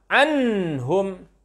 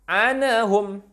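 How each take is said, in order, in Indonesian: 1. Bunyi n ditahan dan dipanjangkan sebelum lanjut. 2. Bunyi n memantul dengan tambahan vokal setelahnya. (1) "Tidak tertahan" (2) "tidak memantul, tak boleh"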